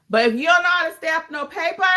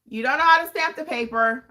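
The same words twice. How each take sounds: First: Said in the usual way. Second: "the paper" said carefully and properly; correct English. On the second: Shown as a demonstration. Notary coach restating it in proper English, careful phrasing. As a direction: fix the grammar on purpose. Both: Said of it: "I'm gonna say it in correct English".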